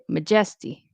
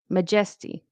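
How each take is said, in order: First: The stress falls on a different syllable. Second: The same.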